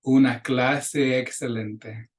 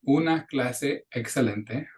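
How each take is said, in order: First: Una clase excelente with the two e's joined into one long e; slow linked Una clase excelente. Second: Una clase excelente with the two e's held apart; choppy una clase excelente; unlinked. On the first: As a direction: Una clase excelente run smoothly together. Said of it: "gonna link those two E's". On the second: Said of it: "I'm not saying". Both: Shown as a demonstration.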